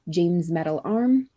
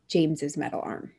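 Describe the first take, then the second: First: The possessive name has one syllable, no extra ending. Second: The possessive name has two syllables, an extra ending. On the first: "pronounced James" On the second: "if they pronounce it the second way, James's"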